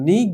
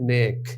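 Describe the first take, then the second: First: The vowel is a long 'ee' sound. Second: The vowel is an 'ay' sound. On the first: The speaker calls it wrong. "যেটা মারুফ সেটা যদি হতো তাহলে আমরা নিক বলতাম, না নিক না" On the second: The speaker calls it right. "কথাটা হচ্ছে নেক"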